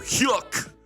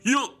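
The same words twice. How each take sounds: First: The final K is crisply and clearly pronounced. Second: It is a gutty burst with nearly silent K. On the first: The speaker calls it wrong. "you can't go hyuk. D- don't go into the, into your reading and say hyuk. No, you can't enunciate that well" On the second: The speaker calls it right. "reach down in the gut and just pull out a hyuk. Almost like you're doing a karate kick"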